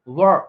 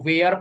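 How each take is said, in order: First: The vowel is a short 'er' sound. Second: The vowel is a drawn-out 'air' sound. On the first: The speaker calls it right. "वर इसको पढ़ते हैं" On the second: The speaker calls it wrong. "Bihar में generally teachers भी बच्चों को बता देते हैं डब्ल्यू ई आर ई को वेयर पढ़ना"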